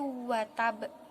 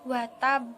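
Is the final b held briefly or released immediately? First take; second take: held; immediate. First: The final b is held briefly, then bounced. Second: The final b is bounced at once, without holding. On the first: The speaker calls it right. "seharusnya ditahan sesaat sebelum dipantulkan qalqalahnya" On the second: The speaker calls it wrong. "seperti qalqalah biasa"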